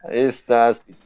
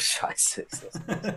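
First: Loud, exasperated; loud groan. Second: Laughing under breath; breathy laugh through words. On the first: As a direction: call it out loud. Repeats it loud. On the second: Laughs at own bad pick. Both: Real, not acted.

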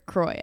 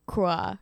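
First: Put-on "Croy" said to rhyme with boy; alternative pronunciation. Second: "croix" said the French way, as KRWAH; French-style pronunciation. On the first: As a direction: say "Croy" with an oy ending. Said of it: "pronounced a, a lot of different ways". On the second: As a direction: say "croix" with a wah ending. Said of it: "appropriately pronounced". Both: Shown as a demonstration.

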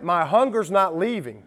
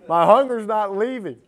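First: Said in the usual way. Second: Higher and louder, driving the words home; emphatic repeat. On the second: Shown as a demonstration. Preacher repeating it louder to press the point. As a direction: push the repeat harder with rising force.

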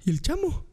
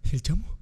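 First: High-pitched mock panic; panicked question. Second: Said in the usual way. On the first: Drunk man missing his friend, high panicked question. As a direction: squeak it out in alarm.

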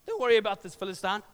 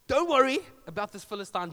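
First: Said in the usual way. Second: "Don't worry about this Philistine" a little louder, "worry" stressed; David calming King Saul; confident repeat. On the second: Retold or imitated. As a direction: reassure the king firmly. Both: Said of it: "David says".

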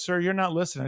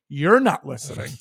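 First: Said in the usual way. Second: Sarcastic parroting of the agent; mock her line right back at her; mocking echo. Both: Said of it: "I said".

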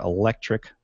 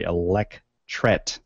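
First: ELECTRIC said with a hard final "-ic"; "electric" ending in "-trick" by mistake; slip of the tongue. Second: ELECTRET slowly broken up as "elec-tret"; careful correction. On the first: Podcaster tripping over the invention's name, misspoken. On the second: Podcaster correcting a misread invention name, careful pronunciation. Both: Real, not acted. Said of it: "or I'm sorry".

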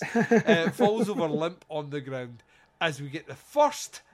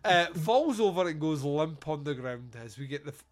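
First: Giggling restart of the line; laughing. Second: Said in the usual way. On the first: Shown as a demonstration. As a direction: reread through laughter, louder. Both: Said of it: "I clearly didn't wank".

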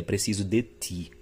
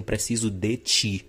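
First: "ti" in "Preciso de ti" said with a clean dental t, no affricate; slow, careful "Preciso de ti" with a plain t; "de ti" with a crisp dental t; dental pronunciation. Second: "ti" in "Preciso de ti" said as "tchi", with a palatal affricate; slow, deliberate "Preciso de tchi" with the tch sound; "de ti" pronounced "de tchi"; Recife affricate pronunciation. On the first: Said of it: "em vez de o esperado, que seria". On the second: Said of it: "Ou seja, diziam". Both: Shown as a demonstration.

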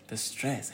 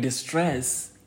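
First: Said in the usual way. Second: "stress" drawn out slowly and pushed louder; emphasized word stress. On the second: Shown as a demonstration. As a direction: lean hard on "stress", slow and weighty. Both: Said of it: "I can't emphasize enough or stress the word stress".

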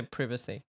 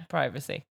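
First: Privacy said as PRIV-uh-see; privacy with a short i; short-i British pronunciation. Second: Privacy said as PRY-vuh-see; privacy with a long i; long-i pronunciation. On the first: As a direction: say privacy starting like "privet". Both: Shown as a demonstration. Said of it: "Some people say privacy".

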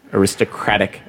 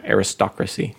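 First: Aristocratic with the main stress on CRAT, the third-from-start beat moved late; stress shift. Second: Aristocracy with the main stress on STOC; stress shift. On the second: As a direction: say aristocracy as ar-is-TOC-ra-cy. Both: Shown as a demonstration. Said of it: "it moves the emphasis".

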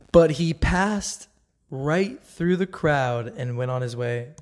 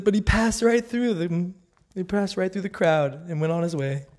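First: Slow, weighty reading of the verse; slow scripture reading. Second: Higher, amused and lively; delighted retelling. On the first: Reading the verse aloud to viewers, slow and weighty. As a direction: lay each word down slowly. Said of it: "This is verse thirty in Luke four". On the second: Rereading her favourite verse, high and delighted. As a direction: relish it like the best punchline. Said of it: "it says". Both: Shown as a demonstration.

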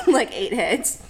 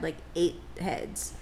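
First: "eight heads" punched out louder; emphatic repeat. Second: Soft, slowed murmur of "eight heads"; hushed aside. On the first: Repeating for effect to her co-host, louder on "eight heads". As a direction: land hard on "eight heads" the second time. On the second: Retelling how roommates stared at her, said softly and slowly. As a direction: drop the voice low and slow on "eight heads". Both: Pretend.

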